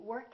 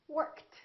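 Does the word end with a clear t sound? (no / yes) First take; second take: no; yes. First: The ending is not a t sound. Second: The ending is a t sound. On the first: The speaker calls it wrong. "not going to be worked" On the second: The speaker calls it right. "It's going to be T"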